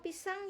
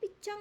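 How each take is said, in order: First: The middle consonant is a clear s. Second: The middle consonant sounds like ch. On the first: The parent models the correct form without pointing out the mistake. The speaker calls it right. "indirect correction" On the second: The parent copies the child's baby-talk form. The speaker calls it wrong. "ikut-ikutan orang tua namanya"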